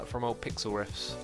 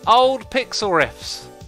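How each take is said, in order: First: It is said in his plain normal voice. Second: It is said in a funny put-on voice.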